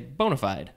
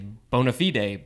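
First: It is said with an everyday English pronunciation. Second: It is said with a formal Latin-style pronunciation. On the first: This is the usual everyday way. "But usually we just say bona fide" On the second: The speaker is being fancy. "if you're being all fancy in Latin, you'd say bona fide"

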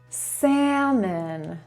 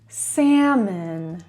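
Both takes have the same delivery.

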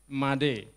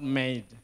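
First: It does not sound like English 'made'. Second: It sounds like the English word 'made'. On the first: The speaker calls it right. "The first one is Made" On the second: The speaker calls it wrong. "not Made. So for example, it is not past tense of make"

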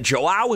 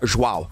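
First: The name starts with a J sound. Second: The name starts without a J sound. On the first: The speaker calls it wrong. "is it Joao? And it's like, no, no" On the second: The speaker calls it right. "the J is like silent"

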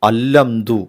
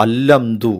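First: The h is dropped and the l is doubled. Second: The h is dropped and the l is doubled.

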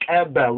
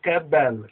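First: The first consonant is a sharp, click-like ejective. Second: The same.

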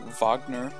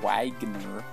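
First: The name is said the composer's way. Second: The name is said the American way. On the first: The speaker calls it right. "I do pronounce it the way that the composer pronounces it" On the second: The speaker calls it wrong. "It's not Wagner, stupid Americans"

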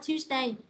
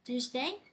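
First: The voice does not rise at the end. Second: The voice rises on the last syllable.

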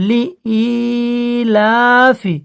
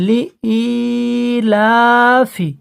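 The two takes are said the same way.

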